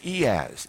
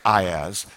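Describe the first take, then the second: First: It is said the European way. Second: It is said the American way. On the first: "Europeans all say EaaS" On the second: "I'm an American. I say IaaS"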